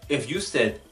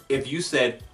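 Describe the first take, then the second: No difference in how they are said.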